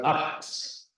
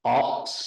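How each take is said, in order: First: A whispered, unvoiced ox, softer; right ox. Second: Ox breathed out without voice; a whispered, unvoiced ox; wrong ox. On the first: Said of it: "but ox". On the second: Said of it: "Not an". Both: Shown as a demonstration.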